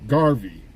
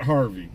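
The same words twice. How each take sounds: First: Garvey said with a firm hard G; right name Garvey. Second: Harvey said with a clear H sound, the wrong name. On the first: Correcting the listener on the player's name, Garvey with hard G. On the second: Correcting the listener on the player's name, Harvey with H. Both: Shown as a demonstration. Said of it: "Steve Garvey, not Harvey".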